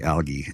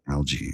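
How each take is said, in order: First: The word is pronounced the British way. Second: The word is pronounced the American way. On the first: "I think the Brits say algae" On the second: "Americans say algae"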